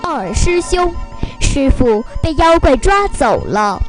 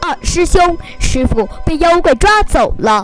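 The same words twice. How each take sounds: First: It is said slower and calmer. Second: It is said faster and more anxiously.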